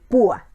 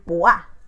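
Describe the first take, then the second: First: The stress falls on the vowel u. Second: The stress falls on the vowel a. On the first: The speaker calls it right. "queremos decir púa" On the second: The speaker calls it wrong. "la mayor fuerza de voz la tendríamos que pronunciar en la vocal fuerte"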